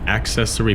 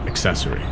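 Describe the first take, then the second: First: The first syllable is said in full. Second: The first syllable is said very short. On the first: "You can also say it not accessory" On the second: "but accessory. Just very short"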